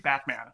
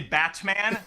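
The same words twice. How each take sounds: First: The T in the middle is dropped. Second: The T in the middle is clearly pronounced. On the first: "I get criticized for not pronouncing my T's because I say Batman" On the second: "If I don't say Batman"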